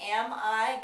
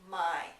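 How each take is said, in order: First: Both words are said separately with vowels. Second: The first vowel drops, giving one syllable.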